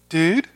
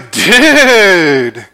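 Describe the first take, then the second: First: It is said warily, with alarm and suspicion. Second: It is said with lively, excited energy. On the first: Someone seems to be lurking with a weapon. "are you hiding behind the door with a knife" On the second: The speaker is thrilled. "to say you're excited, you might say"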